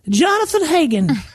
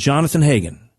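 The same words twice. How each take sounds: First: The name is said in a put-on voice. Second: The name is said in an ordinary voice. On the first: "She said it more like this" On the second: "she didn't say it in that voice"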